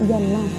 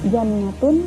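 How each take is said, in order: First: The word ends with an h sound. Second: The word ends with a t and vowel. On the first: "dibaca jannah" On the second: "kata jannatun"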